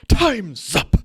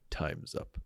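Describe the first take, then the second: First: It is screamed very loudly. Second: It is whispered very quietly.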